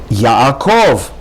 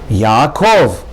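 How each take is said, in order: Both takes have the same delivery.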